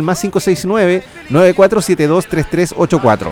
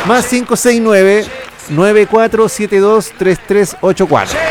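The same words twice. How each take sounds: First: The number is read fast. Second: The number is read slowly.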